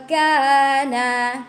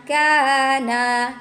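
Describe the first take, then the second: No difference in how they are said.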